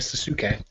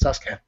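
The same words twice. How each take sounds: First: The u after the s is fully pronounced. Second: The u after the s is cut short. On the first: The speaker calls it wrong. "you don't call Sasuke Sasuke" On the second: The speaker calls it right. "I's and U's always get cut down like that"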